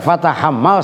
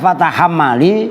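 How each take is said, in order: First: The word ends on the consonant l. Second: The word ends with an added i vowel. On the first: The poem's rhyme is lost. The speaker calls it wrong. "kalau dibaca fatahammal syair jadi hambar" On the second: The poem's rhyme is kept. The speaker calls it right. "maka dikasroin"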